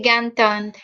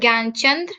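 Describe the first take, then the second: First: The middle consonant is replaced by a 't' sound. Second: The middle consonant is a clear 'ch' sound. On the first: "so they will say Gyantand" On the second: "if you your name is Gyanchand"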